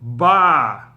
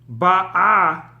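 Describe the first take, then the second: First: The stress is on the first syllable. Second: The stress is on the last syllable. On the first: She came. "Here the stress is on the first syllable" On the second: She is coming. "The stress is on the last syllable"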